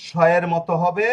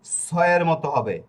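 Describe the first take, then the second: First: স said as a hushing "sh"; sh sound. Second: স said as a hissed "s"; plain s sound. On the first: Teacher showing Italian S's first sound, স as "sh". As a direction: say স with a clear "sh", as in ship. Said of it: "তালিবাস স". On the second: Teacher showing Italian S's third sound, স as hissed "s". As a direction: say স with a sharp "s", as in sun. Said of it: "এরপরে আবার হবে স". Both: Shown as a demonstration.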